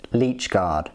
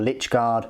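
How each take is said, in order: First: "Leech" said with a long ee, like the bloodsucker; Leech pronunciation. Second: "Lich" said with a short i; Lich pronunciation. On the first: Reviewer offering one name for the Necron models, "Leech" with long ee. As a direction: say "Leech" to rhyme with beach. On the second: Reviewer offering the other name for the models, "Lich" with short i. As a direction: say "Lich" to rhyme with rich. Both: Shown as a demonstration. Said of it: "however you wanna call them".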